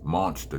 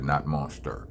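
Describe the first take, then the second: First: The word ends in an open 'ah' sound. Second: The word ends in an 'er' sound. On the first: The speaker calls it right. "It's an A at the end of monster" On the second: The speaker calls it wrong. "not E R"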